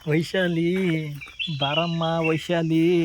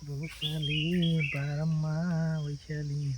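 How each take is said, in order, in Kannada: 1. ಕರೆಯನ್ನು ಜೋರಾಗಿ ಹೇಳಲಾಗಿದೆ. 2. ಕರೆಯನ್ನು ಸಾಮಾನ್ಯ ಧ್ವನಿಯಲ್ಲಿ ಹೇಳಲಾಗಿದೆ.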